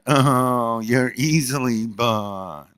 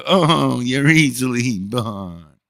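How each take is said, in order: First: Slow, higher mocking imitation of her. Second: Slow, higher mock of her voice, the Oh up high. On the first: Teasing his daughter by mocking her voice, slow and higher. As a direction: drag it out to mock her sweetness. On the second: Retelling the jab at his daughter in a slow, high mocking voice. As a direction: stretch it out to needle her. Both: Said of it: "And in that voice, ... mock their voice".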